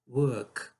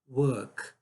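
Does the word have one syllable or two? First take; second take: one; one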